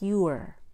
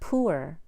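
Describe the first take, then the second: First: The P is followed by a Y sound. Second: The P is followed directly by oo. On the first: The speaker calls it right. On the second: The speaker calls it wrong. "It's not"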